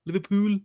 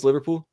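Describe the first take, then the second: First: High-pitched mock Scouse; Liverpool accent attempt. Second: Said in the usual way. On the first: Shown as a demonstration. Commentator trying Liverpool for his co-host, high Scouse accent. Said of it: "What's Liverpool?". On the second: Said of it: "give me Liverpool".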